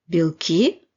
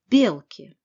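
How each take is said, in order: First: The ending is said fully, not reduced. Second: The ending is reduced as much as possible.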